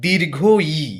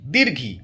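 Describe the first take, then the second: First: The two words are said fully and separately. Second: The two words are merged into one short word. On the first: The speaker calls it right. "ব্যাপারটা হচ্ছে" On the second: The speaker calls it wrong. "এগুলো বলে কিছু হয় না"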